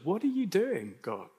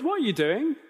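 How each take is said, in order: First: It sounds worried and concerned. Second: It sounds casual and childlike.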